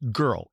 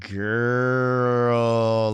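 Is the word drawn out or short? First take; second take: short; drawn out. First: The word is said short and sharp. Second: The word is drawn out with a growl. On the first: I need your attention right now. "girl with an exclamation point, that means like, I need your attention" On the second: Something seems questionable or wacky. "like I need to like pull it out"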